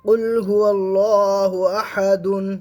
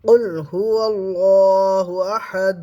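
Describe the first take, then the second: First: The last word ends with a full 'dun' syllable. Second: The last word ends with a stopped, bouncing 'd'. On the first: "দাল দু পেশ দুন" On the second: "সাকিন করলে"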